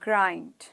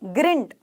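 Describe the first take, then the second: First: The vowel is a gliding eye sound. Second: The vowel is a short ee sound. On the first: The speaker calls it right. "आई को ई नहीं बोलना है, आई बोलना है" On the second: The speaker calls it wrong. "ग्रिंट ना, ग्रिंट नहीं"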